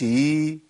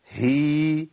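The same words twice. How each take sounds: First: "هي" as a bare ee like ياء, no ه; haa turned yaa. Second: "هي" as a long hee with a distinct ه; clear haa with kasra. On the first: Teacher shows the mistake, haa turned into yaa. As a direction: slide into the ee of "هي" with no h. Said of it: "كأني جبت ياء". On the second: Teacher models haa with kasra, clearly sounded. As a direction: articulate the h before the ee of "هي". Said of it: "الهاء المكسورة". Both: Shown as a demonstration.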